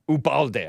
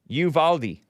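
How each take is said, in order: First: The middle consonant sounds like a soft b. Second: The middle consonant sounds like an English v. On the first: The speaker calls it wrong. "I pronounced it in Spanish" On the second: The speaker calls it right. "pronounced Uvalde"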